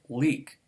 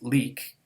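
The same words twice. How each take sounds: First: The L sound is dark and velarized. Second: The L sound is a plain alveolar L. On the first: "or the velarized one instead" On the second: "normally pronounced leak with the alveolar one"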